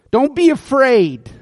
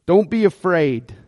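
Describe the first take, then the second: First: Higher, emphatic reassurance; calm a frightened man; reassuring king, pitched up. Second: Said in the usual way. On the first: Retold or imitated. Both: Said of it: "Look at verse seven".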